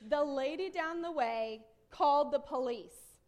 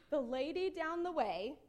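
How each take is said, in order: First: Slow, loud, weighty delivery; dramatic announcement. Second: Said in the usual way. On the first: Retold or imitated. Daughter reporting the neighbor to mom, dramatic. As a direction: announce the scandal slowly and loudly.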